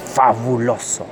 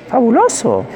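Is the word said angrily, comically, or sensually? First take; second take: angrily; comically. First: The word is said in an angry tone. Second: The word is said in a comic tone. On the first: "Cuando digas fabuloso con rabia" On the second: "como un comediante"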